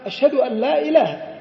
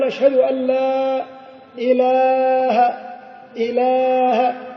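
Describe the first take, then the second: First: The vowel in 'ilah' has normal length. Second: The vowel in 'ilah' is stretched very long. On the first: The speaker calls it right. "بدون أن يمد الألف مدا زائدا" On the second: The speaker calls it wrong. "المد المبالغ فيه في إله"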